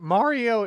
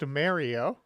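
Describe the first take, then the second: First: The name is said with a standard pronunciation. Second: The name is said with an East Coast pronunciation. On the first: "Mario instead of" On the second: "that weird East Coast Mario"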